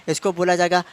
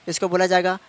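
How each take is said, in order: Both takes have the same delivery.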